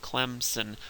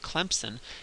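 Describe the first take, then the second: First: A plain m and s, with no extra sound. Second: A p sound is slipped in after the m. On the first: The way the spelling suggests, which nobody really says. "the way it's quote-unquote supposed to be pronounced" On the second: A Southern way of saying it. "like a good Southerner ... you put a P in there"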